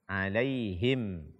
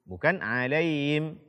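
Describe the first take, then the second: First: The h sound is pronounced clearly. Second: The h sound is weak and unclear. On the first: The speaker calls it right. "membaca ha dengan jelas" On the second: The speaker calls it wrong.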